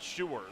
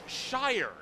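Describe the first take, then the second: First: The name rhymes with the word sure. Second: The name rhymes with the word fire. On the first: The speaker calls it wrong. "not Sure" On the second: The speaker calls it right. "now I remember it's Shire"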